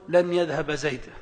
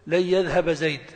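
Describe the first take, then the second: First: The n is pronounced clearly before the y. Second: The n merges into the following y sound. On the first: The speaker calls it wrong. "ولا يجوز أن تقول" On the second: The speaker calls it right. "فيجب أن تقول"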